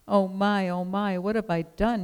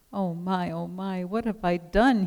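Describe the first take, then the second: First: Higher-pitched moan, mildly done. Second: A touch of a king's dismayed wail. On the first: King sleepless over the woman alone, moaning. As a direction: moan it lightly, like a regretful king. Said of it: "he moaned". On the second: Remorseful king who cannot sleep, wailing. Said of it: "he wailed". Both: A narrator's reading.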